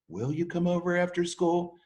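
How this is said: The voice rises at the end like a question.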